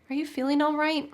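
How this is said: The tone is soft and empathetic. The friend is being cared for. The speaker calls it right. "instead I'm really soft and empathetic"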